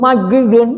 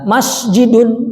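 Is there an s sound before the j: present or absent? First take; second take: absent; present. First: The word is said without the s sound. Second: The word is said with an s sound. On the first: The speaker calls it wrong. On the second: The speaker calls it right.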